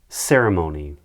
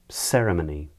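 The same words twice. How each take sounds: First: It is said in an American accent. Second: It is said in a British accent.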